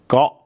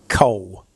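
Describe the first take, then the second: First: It has a very short vowel, like got. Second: It has a long o, like English coal. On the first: The speaker calls it right. "think of the English word got and just remove the T" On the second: The speaker calls it wrong. "they say coal, and it sounds nothing like coal"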